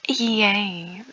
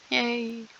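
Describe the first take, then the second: First: Flat sarcastic yay; deadpan fake cheer. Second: Sarcastic. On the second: Acted. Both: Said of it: "I am being sarcastic".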